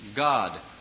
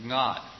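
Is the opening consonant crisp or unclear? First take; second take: crisp; unclear. First: The opening consonant is crisp and energized. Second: The opening consonant is weak and unclear. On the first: The speaker calls it right. "But it's" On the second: The speaker calls it wrong. "It's very difficult for some people to sing that clearly. They go"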